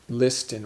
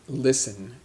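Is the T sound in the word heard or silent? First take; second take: heard; silent. First: The T sound is pronounced in the middle. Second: The T sound is silent in the middle. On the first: The speaker calls it wrong. "we don't say listen" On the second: The speaker calls it right. "the T is silent"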